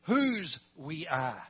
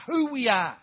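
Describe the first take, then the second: First: WHOSE drawn out and set apart; stress on WHOSE. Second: WHO hit loud and high; stress on WHO. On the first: Preacher turning who into whose, stress on WHOSE. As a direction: hold the word "whose", pause, then finish. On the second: Preacher explaining why they do it, stress on WHO. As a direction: punch the word "who" loudly, then fall away. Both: Real, not acted.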